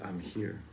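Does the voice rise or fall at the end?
fall. The voice falls at the end, like a statement.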